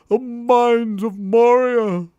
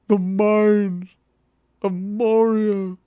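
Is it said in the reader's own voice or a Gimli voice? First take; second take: own voice; Gimli voice. First: It is said in the reader's own voice. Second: It is said in a put-on Gimli voice.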